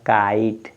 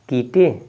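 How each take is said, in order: First: It has an 'eye' vowel and no final vowel. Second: It has an 'ee' vowel and a final 'e'. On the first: The speaker calls it right. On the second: The speaker calls it wrong. "कीटे नहीं लिखा है"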